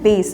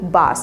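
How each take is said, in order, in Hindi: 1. यह स्वर 'ay' ध्वनि है। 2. यह स्वर एक खुली 'a' ध्वनि है। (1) "इसका प्रोनाउंसिएशन है बेस" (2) "इसे हम बास प्रोनाउंस करते हैं"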